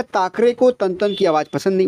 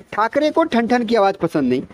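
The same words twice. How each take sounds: First: ठाकरे said as ताकरे with a plain dental t, in a British accent; British लहजे में ठ को त बोलना; British accent on Hindi. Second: ठाकरे and ठन said with aspirated retroflex ठ; teacher models the right Hindi ठ sounds; शुद्ध हिंदी ठ उच्चारण; correct Hindi ठ. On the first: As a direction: imitate a British speaker who can't say ठ, ठन becoming तन. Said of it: "वो कैसे कहेगा? वो कहेगा". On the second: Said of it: "इसी चीज़ को अगर कोई ब्रिटिश कहेगा". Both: Shown as a demonstration.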